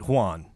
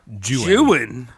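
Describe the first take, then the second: First: The name is said as one syllable. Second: The name is said as two syllables. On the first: The speaker calls it wrong. "I instinctively want to pronounce it Juan" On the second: The speaker calls it right.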